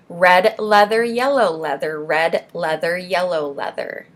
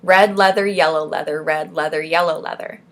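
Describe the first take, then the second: First: Slow, measured articulation drill; unhurried, carefully separated words; slow tongue twister. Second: Quicker, run-together articulation; brisk tongue-twister drill; fast tongue twister. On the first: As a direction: take each word slowly and clearly. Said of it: "I'm gonna say it slow". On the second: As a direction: rattle it off without pausing. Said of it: "Maybe I'll try saying it fast". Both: Shown as a demonstration.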